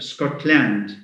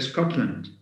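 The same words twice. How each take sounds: First: The last syllable has a full 'a' vowel. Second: The last syllable has a reduced schwa vowel. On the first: The speaker calls it wrong. "we don't say" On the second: The speaker calls it right. "We say Scotland"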